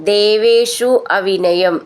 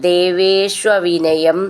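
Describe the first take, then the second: Both takes have the same delivery.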